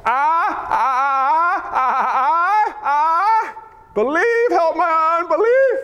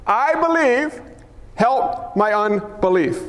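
First: High, stammering wail into a plea; acted desperate cry. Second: Measured declaration. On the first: Father begging Jesus for belief, high anguished cry. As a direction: cry out in broken bursts, then plead. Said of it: "The Greek reads this way". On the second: Shown as a demonstration. Preacher offering a life verse, slow and deliberate. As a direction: declare it slowly, phrase by phrase.

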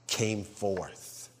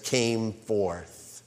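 First: Came forth low and much softer, slowly; hushed emphasis. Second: Came forth said low and weighty; emphasis. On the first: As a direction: let came forth sink in. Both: Shown as a demonstration. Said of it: "Read the words again".

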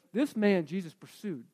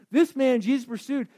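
First: Said in the usual way. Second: "This man Jesus pursued" said higher and louder, stressing "This"; emphatic repeat. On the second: Shown as a demonstration. Preacher to congregation, driving home the point emphatically. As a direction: hit "This" hard on the repeat.

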